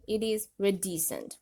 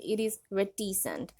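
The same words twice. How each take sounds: First: "reticent" in American pronunciation, softened middle t; American accent. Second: "reticent" in British pronunciation, crisp t in the middle; British accent. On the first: Teacher showing learners the American pronunciation of reticent, American accent. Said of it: "But in American accent". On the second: Teacher showing learners the British pronunciation of reticent, British accent. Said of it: "if you follow British accent". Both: Shown as a demonstration.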